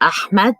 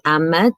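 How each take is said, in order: First: Ahmed is said with an Arabic pronunciation. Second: Ahmed is said with a Western pronunciation.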